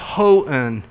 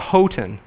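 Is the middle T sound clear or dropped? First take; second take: dropped; clear. First: The middle T is swallowed, not clearly released. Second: The middle T is clearly pronounced as T. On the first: The speaker calls it wrong. "they don't go to Houghton" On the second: The speaker calls it right. "They go to Houghton College"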